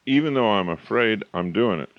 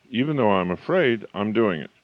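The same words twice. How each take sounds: The two takes are said the same way.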